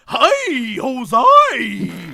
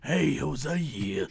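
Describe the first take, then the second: First: It is said in an ordinary, friendly voice. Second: It is said in a creepy, sleazy voice.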